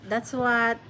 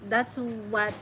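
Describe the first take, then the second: The two takes are said the same way.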